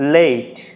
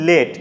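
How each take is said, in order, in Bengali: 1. স্বরধ্বনিটি e থেকে i-এর দিকে গড়িয়ে যায়। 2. স্বরধ্বনিটি একটি স্থির ধ্বনি। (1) "আসলে উচ্চারণটা কি হয়" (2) "আমরা বলি লেট"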